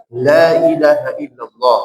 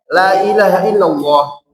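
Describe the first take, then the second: First: LA ILAHA ILLALLAH with a heavy first la; wrong thick la. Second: LA ILAHA ILLALLAH with a light first la; correct thin la. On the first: Teacher shows what not to read, la thickened. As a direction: darken the la in la ilaha illallah as a mistake. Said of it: "Tidak dibaca". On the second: Teacher gives the proper reading, la said thin. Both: Shown as a demonstration.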